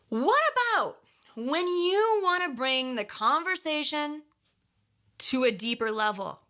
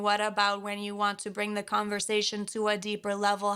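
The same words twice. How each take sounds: First: It is broken into chunks by pauses. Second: It is said fast with no pauses. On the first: The speaker calls it right. "So did you see how I paused" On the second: The speaker calls it wrong. "This is without any chunking"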